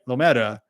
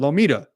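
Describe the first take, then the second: First: The middle vowel sounds like 'eh'. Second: The middle vowel sounds like 'ee'. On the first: This is how the spelling suggests it is said. The speaker calls it wrong. "There's no other way that you would pronounce it. It's got ... M E T A" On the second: This is how the locals actually say it. The speaker calls it right. "but it's called Lomita"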